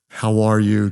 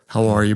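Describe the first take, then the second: First: It is said in a warm, sincere way. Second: It is said in a casual, offhand way.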